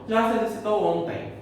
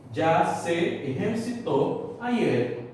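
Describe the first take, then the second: First: Said in the usual way. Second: Slow Spanish "exercitou", throaty j, final stress; Spanish pronunciation. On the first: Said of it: "falar em português". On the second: Shown as a demonstration. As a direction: model "exercitou ayer" slowly in Spanish. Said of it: "Olha o exemplo".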